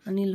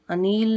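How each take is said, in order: First: अनिल with a short i; correct form of अनिल. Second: अनिल with a long stretched ee; wrong form of अनिल. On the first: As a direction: say अनिल as a quick a-nil. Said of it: "होता है". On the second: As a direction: lengthen the second vowel of अनिल. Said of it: "नहीं होता है". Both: Shown as a demonstration.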